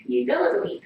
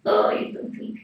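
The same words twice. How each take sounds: First: Said in the usual way. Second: Much higher, breathy-free whisper of praise; high whispered coo. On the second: Real, not acted. To the sweet cat, a high whispered coo.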